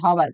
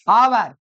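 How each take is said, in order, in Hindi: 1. शब्द की शुरुआत में साफ़ h की ध्वनि सुनाई देती है। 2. शब्द स्वर से शुरू होता है, उसमें h नहीं है। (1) "ऐसे नहीं होता" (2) "यहाँ एच साइलेंट है"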